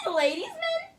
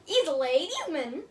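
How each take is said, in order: First: Much higher, squeaky mock Irish accent; giggly, high-pitched mock Irish accent; high Irish fairy voice. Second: Mock Irish accent, only lightly put on. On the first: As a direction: play a tiny Irish fairy calling out. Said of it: "That sounds like some kind of fairy". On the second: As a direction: say it as a playful Irish guy reading a card. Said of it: "like, my Irish accent".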